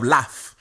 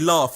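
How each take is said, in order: First: It is said in a non-southern English accent. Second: It is said in a southern English accent. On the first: This is how others expect it to be said. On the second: This is how the speaker himself says it.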